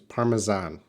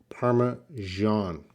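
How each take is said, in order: First: It is said with a British pronunciation. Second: It is said with an American pronunciation. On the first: "And the British is Parmesan" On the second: "so American, I'm correct with the American pronunciation. It's more of a Parmesan"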